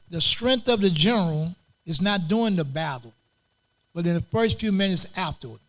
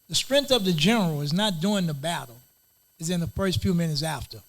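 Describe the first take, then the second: First: It is said slowly and deliberately. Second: It is said at normal conversational speed.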